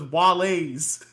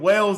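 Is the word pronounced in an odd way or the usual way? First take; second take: odd; usual. First: The word is pronounced in an odd way. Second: The word is pronounced the usual way. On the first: The speaker calls it wrong. "my man is saying Wales as Wale's" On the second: The speaker calls it right. "my man is saying Wales as Wale's"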